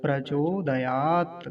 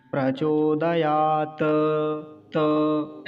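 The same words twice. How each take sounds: First: Slow प्रचोदयात closing on a bare t; halant T. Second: Slow प्रचोदयात ending in a drawn-out "ta"; T without halant. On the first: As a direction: stop dead on त of प्रचोदयात, no vowel after it. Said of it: "हलंत लगा हुआ है तो कैसे बोलेंगे". (प्रचोदयात, अंत में हलंत त पर रुककर) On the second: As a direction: add a held vowel after त in प्रचोदयात. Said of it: "अगर ये हलंत ना होता". (प्रचोदयात में अंत का त पूरा, खींचकर) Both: Shown as a demonstration.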